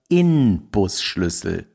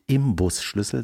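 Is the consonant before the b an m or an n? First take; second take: n; m. First: An n sound comes before the b. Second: An m sound comes before the b. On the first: The speaker calls it right. "Mit N, wie Nordpol" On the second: The speaker calls it wrong. "Es heißt nicht Imbusschlüssel"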